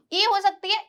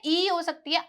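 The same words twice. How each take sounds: First: ई said as a short "i", as in "is"; short, quick "i" sound on ई; short I vowel. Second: ई said as a long "ee", as in "peace"; long "ee" sound on ई; long EE vowel. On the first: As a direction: keep ई brief, like the vowel in "it". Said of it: "या फिर बड़ी ई की sound". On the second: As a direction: stretch ई into a full "ee". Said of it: "बड़ी ई की sound". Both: Shown as a demonstration.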